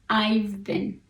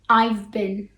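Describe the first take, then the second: First: The word 'have' is reduced to a 'v' sound. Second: The word 'have' is reduced to a 'v' sound.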